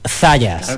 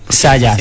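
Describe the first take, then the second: First: The surname is said the Spain Spanish way. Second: The surname is said the Latin American way. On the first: This is how the speaker prefers it said. "yo soy muy español y me gusta que digan Zayas" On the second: This is how people in Latin America say it. "las redes latinas te decían Sayas"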